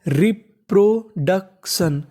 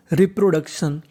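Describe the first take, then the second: First: reproduction drawn out slowly, syllables apart; slow sounding out. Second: Said in the usual way. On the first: Shown as a demonstration. (Reproduction धीरे-धीरे, टुकड़ों में) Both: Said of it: "तो पूरी meaning बन गई".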